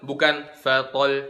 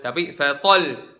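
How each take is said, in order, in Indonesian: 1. Konsonan ganda itu dibaca biasa saja, tanpa penekanan. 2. Konsonan ganda itu dibaca dengan suara dinaikkan, ditekan.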